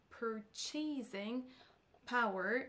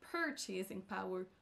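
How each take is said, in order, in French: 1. L'accent est sur la dernière syllabe. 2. L'accent est sur la première syllabe. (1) "et non sur la dernière" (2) "C'est sur la première syllabe qu'on accentuera"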